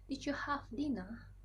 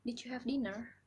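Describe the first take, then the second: First: Slow British English accent, dinna without the r. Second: Light American English accent. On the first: A student demos how a Brit asks about dinner, slow British accent. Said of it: "orang Inggris akan berkata seperti ini". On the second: A student demos how an American asks about dinner, American accent. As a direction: ask it the American way, rhotic dinner. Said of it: "orang Amerika ... seperti ini". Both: Shown as a demonstration.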